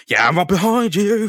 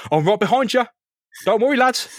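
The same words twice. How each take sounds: First: Mock-strained, high reply; strained Spider-Man, breaking into laughter. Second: Breezy, high reassurance from overhead; high mock-helpful voice; high-voiced Spider-Man. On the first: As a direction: answer as if straining under a load. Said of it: "he's clearly gonna sound strained". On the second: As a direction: call down in a light, raised voice. Spider-Man calls to thugs from above.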